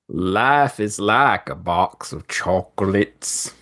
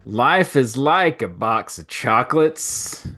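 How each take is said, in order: First: A strong Forrest Gump Southern accent. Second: A faint Forrest Gump Southern accent.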